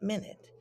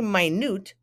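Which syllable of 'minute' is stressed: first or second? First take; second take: first; second. First: The stress falls on the first syllable. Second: The stress falls on the second syllable. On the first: It means a unit of time. "and not minute" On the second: It means tiny. "when we pronounce it minute, it just means a tiny, small thing"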